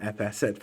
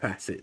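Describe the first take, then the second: First: It starts with the letter name 'eff', then 'asset'. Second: It is said as one word, 'facet'. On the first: The speaker calls it wrong. "I'm gonna keep saying that wrong" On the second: The speaker calls it right. "excuse me"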